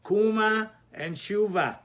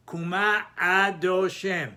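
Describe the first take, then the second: First: Kuma and shuva stressed on the first syllable, KU-ma, SHU-va. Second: Kuma stressed at the end, ku-MA, with a clear ah before adoshem; slow, ku-MA then adoshem as two words; stress on last syllable. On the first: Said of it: "normally they would be mila'el". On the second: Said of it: "the first sound out of a". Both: Shown as a demonstration.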